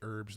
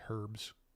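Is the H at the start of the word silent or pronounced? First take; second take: silent; pronounced. First: The opening H sound is silent. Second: The opening H sound is pronounced. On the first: This is the American way to say it. "We say herbs" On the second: This is the British way to say it. "in the U K they actually pronounce the H"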